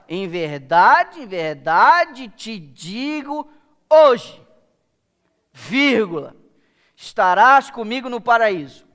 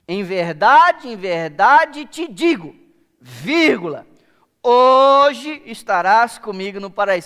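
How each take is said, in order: First: The break comes after the word 'hoje'. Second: The break comes before the word 'hoje'.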